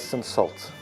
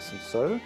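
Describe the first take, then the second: First: It is pronounced the South African way. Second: It is pronounced the French way. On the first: This is how it is said locally. "in South Africa they would pronounce it as Cinsault" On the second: This is a fancy way to say it. "how they would say Cinsault. Very French"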